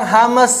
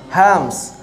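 First: An extra vowel is inserted between m and s. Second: The m and s are joined with no vowel. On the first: The speaker calls it wrong. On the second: The speaker calls it right.

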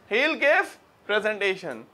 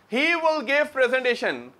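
First: He and will are merged into one syllable. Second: He and will are said as two separate words.

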